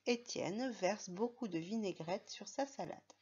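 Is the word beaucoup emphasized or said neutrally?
neutral. The word beaucoup is said without special emphasis. "on va simplement dire"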